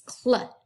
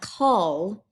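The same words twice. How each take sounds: First: Cl short, c straight into l; blended cl. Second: A long vowel between c and l in call; vowel inserted in blend. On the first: Teacher correcting the CL sound, short blended cl. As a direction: clip cl short with no vowel before the l. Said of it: "it's cl". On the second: Teacher showing the wrong CL sound, stretched call. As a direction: call drawn out slowly. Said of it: "It's not call". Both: Shown as a demonstration.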